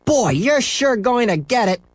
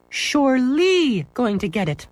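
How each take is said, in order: First: Higher, slower gleeful taunt; taunting kid. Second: Much higher, slow teacher correcting "Surely"; prim correction. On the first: Scooter taunting Henry, gleeful. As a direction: tease him with relish. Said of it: "said Scooter". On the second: Apple lady correcting Scooter's grammar, prim. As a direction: stress "Surely" like a fussy teacher. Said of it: "corrected the apple lady". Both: Acted.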